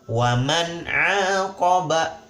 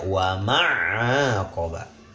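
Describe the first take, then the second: First: The n sound is pronounced clearly. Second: The n sound is dropped or blurred. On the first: The speaker calls it right. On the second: The speaker calls it wrong.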